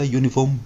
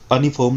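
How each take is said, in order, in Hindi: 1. शब्द 'yoo' ध्वनि से शुरू होता है। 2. शब्द 'uh' स्वर ध्वनि से शुरू होता है। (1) "यूनिफॉर्म बोला जाता है" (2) "इसको अनिफॉर्म नहीं बोला जाता"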